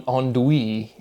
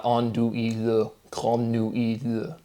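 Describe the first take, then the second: First: "andouille" run together, no le at the end; usual French pronunciation. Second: "andouille, grande nuit" each ending in an audible le; final le sounded. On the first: Questioning the French word, usual silent-L pronunciation. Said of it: "that pronunciation". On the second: Asking why French chops it off, final le sounded. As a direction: draw out "andouille, grande nuit", adding le to both. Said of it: "why that chops off". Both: Shown as a demonstration.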